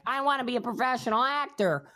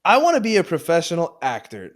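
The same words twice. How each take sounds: First: Mocking quote. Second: Loud, high cheeky answer; teasing loud answer. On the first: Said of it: "some bullshit answer like". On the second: Pretend. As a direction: say it loud to tease him. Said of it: "You motherfucker".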